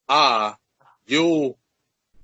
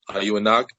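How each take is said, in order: First: It is said slowly and drawn out. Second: It is said at normal speed.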